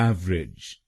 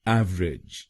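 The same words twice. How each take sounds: Both takes have the same delivery.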